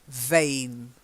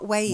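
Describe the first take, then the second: First: The word starts with a V sound. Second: The word starts with a W sound. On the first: The speaker calls it right. "You've got to get the V sound" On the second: The speaker calls it wrong. "Not Wayne"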